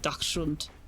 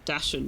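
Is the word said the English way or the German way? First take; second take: German; English. First: The word is said with German sounds. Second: The word is said with English sounds. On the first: The speaker calls it right. "It's more like Dachshund" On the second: The speaker calls it wrong. "It's actually not Dachshund either"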